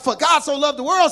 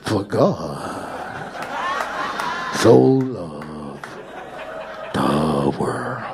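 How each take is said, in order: First: It is read in a plain, flat way. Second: It is preached in a dramatic, showy way.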